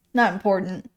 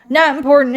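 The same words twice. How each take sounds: First: Said in the usual way. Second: Louder, punchy dismissal; emphatic. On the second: Acted. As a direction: bark it out dismissively.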